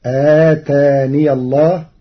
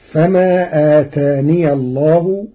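First: آتاني with an open ya, ataniya llah; Warsh reading. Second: Said in the usual way. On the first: Shown as a demonstration. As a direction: say آتاني as ataniya before الله. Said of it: "بإثبات الياء مفتوحة وصلا". (آتاني بإثبات الياء مفتوحة وصلا) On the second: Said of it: "قرأ ورش".

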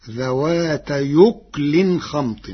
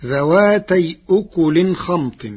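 First: يكل said yukl, with the hamza dropped into the preceding word and the kaf silent; ذوات يكل خمط said slowly in Warsh's way; Warsh reading. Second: ذواتي أكل recited dhawātay ukulin with the hamza kept; recited citation. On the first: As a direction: run ذوات into يكل slowly, with no glottal stop. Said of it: "فتصير الجملة". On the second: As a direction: read ذواتي أكل with a clear glottal stop on أكل. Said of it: "قرأ ورش كلمتي". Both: Shown as a demonstration.

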